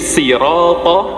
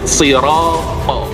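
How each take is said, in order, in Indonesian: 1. Konsonan pertama tipis dan ringan. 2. Konsonan pertama penuh dan berat. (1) "sudah nggak maksimal sodnya" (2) "maksimalkan dia sifat daripada sifat sofir"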